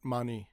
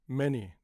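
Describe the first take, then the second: First: The first vowel sounds like 'ah'. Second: The first vowel sounds like 'eh'. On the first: The speaker calls it wrong. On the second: The speaker calls it right. "the sound is still e"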